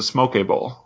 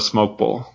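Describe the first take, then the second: First: The first word has an extra second syllable. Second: The first word is a single syllable. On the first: The speaker calls it right. "I think you pronounce it smoke a bowl" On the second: The speaker calls it wrong. "not a smoke bowl"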